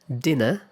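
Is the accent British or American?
British. It is said in a British accent.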